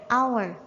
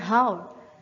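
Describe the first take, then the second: First: The word starts with a vowel, h silent. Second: The word starts with a sounded h. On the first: The speaker calls it right. "kita membacanya hour" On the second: The speaker calls it wrong. "bukan how"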